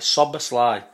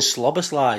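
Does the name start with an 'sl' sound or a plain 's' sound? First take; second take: plain s; sl sound. First: The name starts with a plain 's' sound. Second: The name starts with an 'sl' sound. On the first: The speaker calls it right. "so it's Sobber's lie" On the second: The speaker calls it wrong. "I was saying Slobber's lie"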